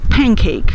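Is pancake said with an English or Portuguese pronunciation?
English. It is said with English pronunciation. "Nós não vamos dizer"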